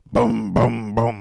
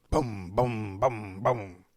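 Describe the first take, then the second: First: Booms hit much louder, like hammer blows; loud imitated head pounding. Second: Low, steady booms like a throbbing headache; imitated head pounding. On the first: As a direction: slam out each boom like a headache spike. Imitating his pounding headache. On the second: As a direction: thump out each boom like a pulse.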